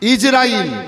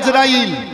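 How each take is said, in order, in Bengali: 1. নামটি 'i' স্বরধ্বনি দিয়ে শুরু। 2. নামটি 'a' স্বরধ্বনি দিয়ে শুরু।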